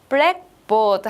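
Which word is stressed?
black. The stress falls on black. It is a board for writing on in class. "블랙에 강세를 주면"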